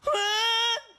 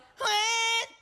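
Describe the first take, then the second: First: The voice is resonant, with chest resonance. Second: The voice is tight, held in the throat. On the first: The speaker calls it right. "Meron. May dibdib, di ba?" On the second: The speaker calls it wrong. "Kaysa yung"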